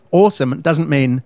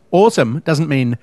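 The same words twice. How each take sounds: The two takes are said the same way.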